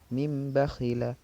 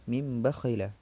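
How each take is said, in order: First: The nasal before bakhila is an m sound. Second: The same.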